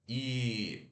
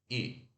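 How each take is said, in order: First: The vowel is a long, tense ee sound. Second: The vowel is a short, relaxed ee sound. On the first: The speaker calls it wrong. "não é I, não" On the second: The speaker calls it right. "esse I fechado, ele é mais curto"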